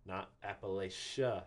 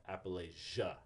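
First: Appalachia said the rejected way, slowly, app-uh-LAY-sha; wrong version. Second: Appalachia said the approved way, app-uh-LATCH-uh; right version. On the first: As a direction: show Appalachia as the way not to say it. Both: Shown as a demonstration.

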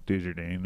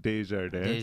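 First: Desjardins anglicized as "day-zher-dane"; bastardized French pronunciation. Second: Desjardins said "day-zhar-day"; French pronunciation, silent S. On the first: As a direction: botch Desjardins with an English-sounding "dane" ending. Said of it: "I'm gonna bastardize it". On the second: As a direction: say Desjardins the French way, dropping both S sounds. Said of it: "you don't say the S". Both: Shown as a demonstration.

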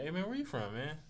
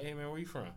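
First: Higher, open "where you from, man?" said casually; easygoing, sociable tone; friendly greeting. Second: Guarded street tone; wary street question. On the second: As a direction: ask "where you from" like sizing someone up. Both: Shown as a demonstration. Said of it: "It's, it's a tone thing".

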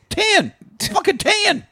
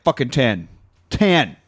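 First: Very high-pitched mock demand; Billy Bob. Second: Said in the usual way. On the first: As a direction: imitate a movie character's high yelp. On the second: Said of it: "he's like".

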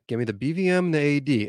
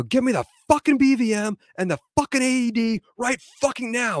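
First: Calm, controlled instruction; retold composed order; calm request. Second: High-pitched, exasperated yelling order; urgent yell, pitch pushed high without full volume; retold yell. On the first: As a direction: ask for it evenly, without raising your voice. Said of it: "I was calm. I said it just like that". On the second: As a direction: re-enact yelling at a trainee, voice way up. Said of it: "and then I yell at him".

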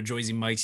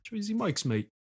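First: Joyzy Mike's with "Joyzy" for Jersey, in the speaker's own voice. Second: "Joyzy Mike's" much higher with a playful British lilt; mock British accent. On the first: Retold or imitated. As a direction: say "Joyzy" casually, no put-on accent. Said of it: "Don't call it the Joyzy Mike's". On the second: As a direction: toss off "mate" like a Londoner, tongue in cheek. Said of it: "Why you say mate".

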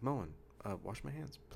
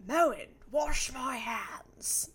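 First: Polite request. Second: Slow, shouted, theatrical command; booming slow command. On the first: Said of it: "His commercial's like". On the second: A viewer mocking the sink ad with a booming slow command. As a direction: bellow it like a grand old orator. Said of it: "I interpreted it as". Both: Retold or imitated.

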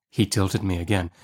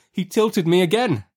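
First: Said in the usual way. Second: Narration pitched right up, tense; high, escalating narrator's alarm; mounting alarm. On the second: A narrator's reading. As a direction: let the narrator's pitch soar as the danger peaks. Tilts escalate to the last.

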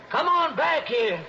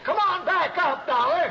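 First: Higher, called out down the canyon; calling down. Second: Higher still, urgent call downward. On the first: Shorty calling down to Dollar, anxious call. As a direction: call him back up from below. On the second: Shorty calling down to Dollar, more urgent call. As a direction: shout him back up, pleading now. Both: Acted.

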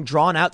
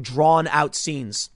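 First: Said in the usual way. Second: "drawn-out" stretched very slow; slowly stretching "drawn-out scenes" for effect. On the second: Shown as a demonstration.

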